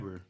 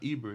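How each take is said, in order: First: The name begins with an 'eye' sound. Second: The name begins with an 'ee' sound. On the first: The speaker calls it right. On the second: The speaker calls it wrong. "It's not Eber"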